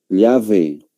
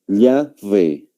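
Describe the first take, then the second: Both takes have the same delivery.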